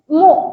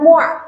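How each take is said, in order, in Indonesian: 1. Suku katanya berakhir terbuka, tanpa menahan napas. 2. Suku katanya berakhir dengan napas ditahan. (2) "Jangan ditahan. Jangan mu'"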